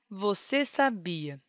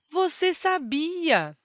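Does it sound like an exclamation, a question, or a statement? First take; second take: statement; exclamation. First: It is said as a flat, finished statement. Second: It is said as a lively, expressive exclamation. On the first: The speaker states a completed idea. "esta frase nos indica uma mensagem com a ideia concluída e, por isso, usamos o ponto final" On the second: The speaker expresses surprise or emphasis. "Esta pontuação nos indica uma frase exclamativa, ou seja, dotada de expressividade"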